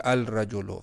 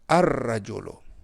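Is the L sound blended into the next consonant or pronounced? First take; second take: pronounced; blended. First: The L is clearly pronounced before the R. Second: The L merges into a doubled R sound. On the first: The speaker calls it wrong. "ऐसे नहीं पढ़ोगे अल रजोलो, गलत है" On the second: The speaker calls it right. "रजुल को आप पढ़ोगे अर रजोलो"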